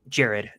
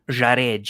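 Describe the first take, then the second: First: The name has an American English pronunciation. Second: The name has a Brazilian Portuguese pronunciation. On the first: This is the name's original pronunciation from home. "I wouldn't be like Jared" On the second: This is how locals in Brazil say the name. "they always pronounce it Jared"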